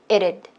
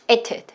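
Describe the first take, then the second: First: The t is a light flap sound. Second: The t is a clear t sound. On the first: "미국식 발음은 보통 이때 t가 모음 사이에 했을 때는 한국어의 리을 소리" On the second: "영국식 발음이고요"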